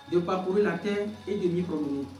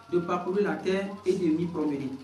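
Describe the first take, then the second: No difference in how they are said.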